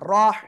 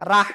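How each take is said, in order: First: The r is said with a heavy, thick sound. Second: The r is said with a light, thin sound. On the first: The speaker calls it right. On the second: The speaker calls it wrong.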